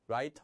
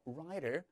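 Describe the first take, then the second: First: The middle t is a crisp, clear t. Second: The middle t is a soft, quick flap. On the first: The speaker calls it wrong. "writer 아니에요" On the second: The speaker calls it right. "모음과 모음 사이에 역시나 t가 끼어 있으니까"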